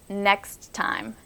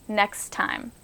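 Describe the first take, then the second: No difference in how they are said.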